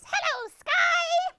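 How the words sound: It is said in a high squeaky voice.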